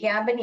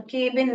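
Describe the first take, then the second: First: Cabin as "KAB-in"; short open "a" in cabin; correct short-A reading. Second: Cabin as "KAY-bin"; long "ay" in cabin; wrong long-A reading. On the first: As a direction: say cabin with the vowel of "cat". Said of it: "ये cabin यहाँ पर belong करता है". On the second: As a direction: say cabin with the vowel of "cake". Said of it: "cabin नहीं है ये". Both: Shown as a demonstration.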